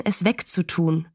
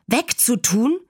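First: Said in the usual way. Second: Mildly horrified echo, rising question; high, disbelieving child's question, not really shouted; entsetzter Aufschrei. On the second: A narrator's reading. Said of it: "schrie Fern entsetzt". (entsetzt nachgefragt, leicht gespielt)

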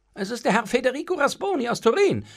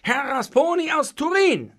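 First: Said in the usual way. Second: "Herr Rasponi aus Turin" high, loud and insistent; emphatic repeat. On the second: A narrator's reading. Servant repeating "Rasponi aus Turin" to the master, emphatic. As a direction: spell out "Rasponi aus Turin" firmly, pitched up.

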